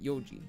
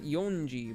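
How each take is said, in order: First: It has no n sound before ji. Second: It has an n sound before ji. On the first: The speaker calls it right. "but yoji" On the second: The speaker calls it wrong. "not yonji"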